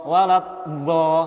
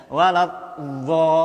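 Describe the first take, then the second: The two takes are said the same way.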